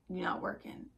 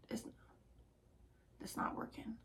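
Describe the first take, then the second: First: Said in the usual way. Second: Whisper. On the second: Real, not acted. Repeating to herself, whispered.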